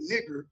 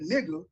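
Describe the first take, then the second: First: The word ends with a hard R sound. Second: The word ends with a vowel sound. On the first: "he hadn't said the the hard E R" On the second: "Just different pronunciations"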